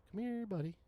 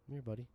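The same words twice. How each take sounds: First: Sing-song higher taunt, falling at the end; higher coaxing call. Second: Said in the usual way. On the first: Real, not acted. Gamer taunting the enemy he's fighting, higher coaxing call. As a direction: lure the monster in like calling a pet.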